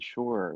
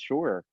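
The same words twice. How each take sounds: First: It sounds reluctant and condescending. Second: It sounds firm and confident. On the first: The speaker is not really agreeing. "it sounds like a condescending and they kind of you know slouched" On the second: The speaker is really agreeing. "they say it with confidence"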